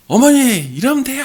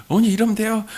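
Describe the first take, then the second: First: High, loud angry outburst at his mother; angry shout. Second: High, raised angry retort; angry shout. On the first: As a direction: yell it in frustration. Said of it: "화를 내신 거예요". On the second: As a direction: repeat the angry outburst. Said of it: "막 화를 내셨는데". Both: Retold or imitated.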